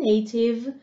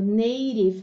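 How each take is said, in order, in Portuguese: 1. O t é um som de t claro. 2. O t soa como um d suave ou um r. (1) "para o britânico" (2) "para o americano"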